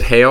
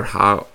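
First: Hale with an "ay" vowel, like hail; long A in Hale. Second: Hal with a short flat vowel, as in pal. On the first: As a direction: say Hale to rhyme with pale. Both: Shown as a demonstration. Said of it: "Is it Hale or Hal?".

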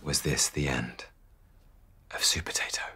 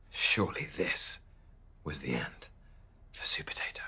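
First: Low dramatic falling question fading to a whisper; solemn low suspense; ominous question. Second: Much softer, whispered dying-away question; hushed gloomy suspense; fading whisper. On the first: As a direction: ask it like a cliffhanger. Cliffhanger question. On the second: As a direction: whisper it like all hope is gone. Second cliffhanger, fading. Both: A narrator's reading.

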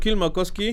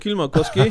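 First: Kylmäkoski said the Finnish way, careful and proud; Finnish pronunciation. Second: Kylmäkoski repeated through a laugh; Kylmäkoski with a pleased laugh. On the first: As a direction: give Kylmäkoski a proper Finnish sound. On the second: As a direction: say Kylmäkoski again, chuckling at the praise. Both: Real, not acted. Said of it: "Bra uttal".

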